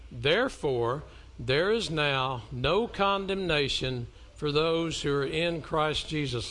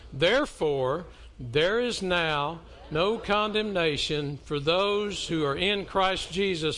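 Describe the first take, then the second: First: It is read in a plain, even way. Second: It is read with gusto and conviction.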